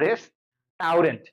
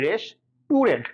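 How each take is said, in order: First: The middle syllable sounds like 'tau'. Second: The middle syllable sounds like 'tu'. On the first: "আসলে কিন্তু রেস্টুরেন্ট আছে, রেস্টাউরেন্ট" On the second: "রেস্টুরেন্ট আমরা কি উচ্চারণ করি"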